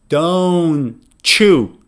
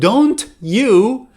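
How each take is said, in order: First: The t and y merge into a ch. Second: The t and y stay separate sounds. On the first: "they would say don't chew" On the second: "instead of don't you"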